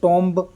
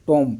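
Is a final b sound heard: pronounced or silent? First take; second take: pronounced; silent. First: The word ends with an audible b sound. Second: The word ends in m with no b. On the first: The speaker calls it wrong. "टॉम्ब ऐसा नहीं बोला ना" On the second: The speaker calls it right. "केवल टॉम बोला है"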